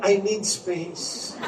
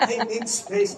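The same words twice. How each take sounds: First: Drawn-out, softer mock teen line; slow mock teen. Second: Giggling through the quoted line; laughing repeat. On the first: Mother quoting her son's constant line, slow and soft. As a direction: stretch it like a sulky teenager. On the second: Retold or imitated. Mother quoting her son again, laughing. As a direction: repeat it while cracking up. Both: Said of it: "Palagi niyang sinasabi".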